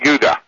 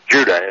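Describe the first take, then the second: First: The word begins with a softer, non-hard J sound. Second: The word begins with a hard J sound.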